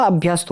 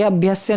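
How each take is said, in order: First: "अभ्यस्त" ending in "st". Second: "अभ्यस्य" ending in "sya"; wrong ending. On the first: Teacher giving students the correction, अभ्यस्त ending in "st". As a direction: say अभ्यस्त as "abhyast". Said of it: "अभ्यस्त होता है". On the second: Teacher showing students the mistake, अभ्यस्य ending in "sya". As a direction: say अभ्यस्य as "abhyasya". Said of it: "ये अभ्यस्य नहीं होता". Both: Shown as a demonstration.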